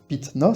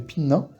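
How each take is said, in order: First: A T sound comes before 'na'. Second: An N sound comes before 'na'. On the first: The speaker calls it wrong. "Pareil pour pitna, c'est chiant" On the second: The speaker calls it right. "alors que pinna, ça se fait tout seul"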